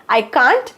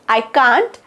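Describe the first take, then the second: Both takes have the same delivery.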